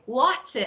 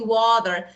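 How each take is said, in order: First: It is said in a British accent. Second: It is said in the speaker's own accent.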